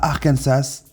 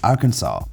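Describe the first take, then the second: First: The final S is pronounced. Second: The final S is silent. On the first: The speaker calls it wrong. "pas Arkansas" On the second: The speaker calls it right. "il n'y a qu'une seule façon de prononcer le nom de l'état, et c'est Arkansas"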